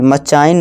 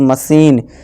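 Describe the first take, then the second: First: The middle consonant is a 'ch' sound. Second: The middle consonant is a 'sh' sound. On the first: The speaker calls it wrong. "मचाइन नहीं दोस्तों" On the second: The speaker calls it right.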